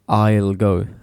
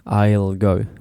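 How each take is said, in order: First: The word 'will' is shortened to an L sound. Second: The same.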